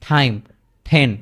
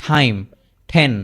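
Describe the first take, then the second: Both takes have the same delivery.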